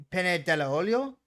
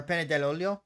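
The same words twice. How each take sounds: First: "dell'olio" slow, with an extra vowel before "olio"; separated dell'olio. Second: "dell'olio" run together, no vowel before "olio"; elided dell'olio. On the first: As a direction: say "dell'olio" as della olio, rising loudly. Offers first of two forms. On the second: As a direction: join "dell'olio" into one word, rising. Offers the elided form second. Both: Shown as a demonstration.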